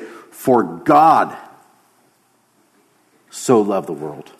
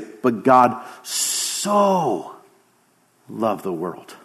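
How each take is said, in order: First: The stress is on the word God. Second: The stress is on the word so.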